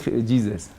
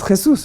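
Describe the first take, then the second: First: The name is pronounced the English way. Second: The name is pronounced the Spanish way. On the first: The speaker calls it wrong. "Los ingleses dicen Jesus" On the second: The speaker calls it right. "es Jesús"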